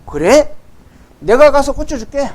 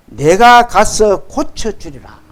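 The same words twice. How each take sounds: First: Higher-pitched, everyday conversational paraphrase; instant casual agreement. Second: Slow, measured reading of Jesus' promise; solemn scripture reading. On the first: Retold or imitated. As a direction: agree on the spot, informally. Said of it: "예수님이 그 말씀을 듣자마자". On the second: Acted. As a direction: draw the verse out formally and deliberately. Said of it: "이르시되".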